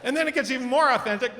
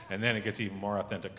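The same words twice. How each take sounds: First: Much higher and faster, laughing as you say it; excited, laughing. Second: Quiet, fast aside. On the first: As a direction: burst out with giddy glee. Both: Shown as a demonstration.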